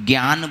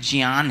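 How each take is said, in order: First: The word starts with a hard g sound. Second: The word starts without a hard g sound. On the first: This is how people in northern India say it. The speaker calls it wrong. "हम लोग उत्तर भारत के लोग ज्ञान बोलते हैं" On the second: This is the form that follows the grammar. The speaker calls it right. "वास्तविकता में यह शब्द ज्ञान है"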